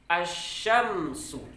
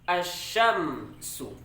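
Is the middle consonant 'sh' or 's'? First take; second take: sh; sh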